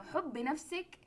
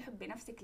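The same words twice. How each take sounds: First: "حبي نفسك" said high with the pitch rising on نفسك; raised questioning quote. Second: "حبي نفسك" said much softer at ordinary pitch, only a slight rise on نفسك; soft plain quote. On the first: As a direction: quote "حبي نفسك" like critics reading it as said to another person, rising up on نفسك. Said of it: "هذه تقوليها لشخص تاني". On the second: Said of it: "في اللغة العامية إحنا نقول". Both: Shown as a demonstration.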